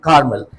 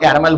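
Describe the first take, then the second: First: The name is said with two syllables. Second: The name is said with three syllables. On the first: The speaker calls it right. "Since then I am pronouncing Carmel" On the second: The speaker calls it wrong. "I used to speak there Mount Caramel"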